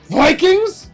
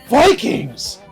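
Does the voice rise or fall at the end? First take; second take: rise; fall. First: The voice rises at the end, like a question. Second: The voice falls at the end, not a question.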